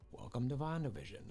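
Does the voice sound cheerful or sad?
sad. The voice sounds low and sad.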